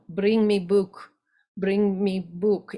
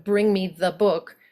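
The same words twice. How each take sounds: First: Slow, lightly voiced Russian accent. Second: Said in the usual way. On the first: Shown as a demonstration. Coach shows Russian dropped articles, Russian accent. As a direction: demand the book with a Russian accent. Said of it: "And then Russian". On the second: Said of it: "Instead of".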